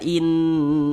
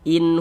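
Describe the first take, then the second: First: The vowel in 'in' is drawn out long. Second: The vowel in 'in' is kept short. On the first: The speaker calls it wrong. "jangan dibaca in" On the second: The speaker calls it right. "pendek saja"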